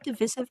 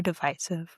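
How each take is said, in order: First: "divisive" with a short i in the middle; short-i pronunciation. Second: "divisive" with the middle vowel like "eye"; long-i pronunciation. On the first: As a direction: say "divisive" as dih-VISS-iv. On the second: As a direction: say "divisive" as dih-VICE-iv. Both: Shown as a demonstration. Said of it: "Is it divisive or divisive?".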